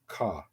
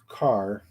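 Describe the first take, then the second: First: It has a Boston accent, final r dropped. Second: It has a Southern accent, final r pronounced.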